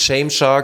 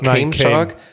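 First: The name begins with a sh sound. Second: The name begins with a k sound. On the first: The speaker calls it wrong. "nicht Shame Shark" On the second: The speaker calls it right. "sondern Came Shark"

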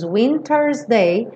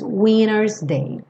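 First: The T in winter's is clearly pronounced. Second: American style: the T in winter's disappears.

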